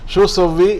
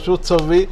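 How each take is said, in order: First: The 'tu' syllable is left out before 'sawwi'. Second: The 'tu' syllable is left out before 'sawwi'.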